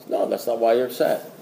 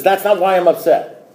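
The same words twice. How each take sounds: First: Low, soft, unbudging sponsor; imitating an unruffled old-timer; calm contradiction. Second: Retold disbelieving comeback; mock-indignant protest; indignant challenge. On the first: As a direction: quietly correct them, dropping pitch and volume. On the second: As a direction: throw the sponsor's line back, affronted. Retold back-and-forth with sponsor.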